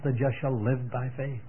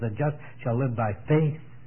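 First: The word live carries the stress. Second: The word faith carries the stress. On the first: "put the emphasis on the life" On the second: "puts the emphasis on the faith"

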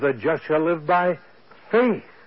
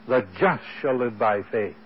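First: The word faith carries the main stress. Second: The word just carries the main stress. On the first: It is by faith that the just will live. "puts the emphasis on the faith" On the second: It is the just who will live by faith. "he puts the emphasis on the just"

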